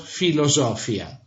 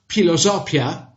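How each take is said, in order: First: It starts with a plain f sound. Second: It starts with a breathy p sound. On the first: The speaker calls it wrong. "and not" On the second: The speaker calls it right. "read really in this way"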